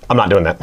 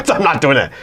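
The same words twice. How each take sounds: First: Said in the usual way. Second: Refusal through a laugh. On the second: Real, not acted. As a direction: say it while laughing.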